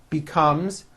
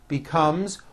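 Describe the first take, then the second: No difference in how they are said.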